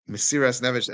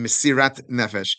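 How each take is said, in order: First: The first word ends with an s sound. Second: The first word ends with a t sound.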